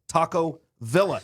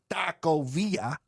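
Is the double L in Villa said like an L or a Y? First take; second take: L; Y. First: The double L is said like an L. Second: The double L is said like a Y. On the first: This is how people in Texas say it. The speaker calls it right. "where we say Taco Villa" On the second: This is how it is said south of the border. The speaker calls it wrong. "not Taco Villa"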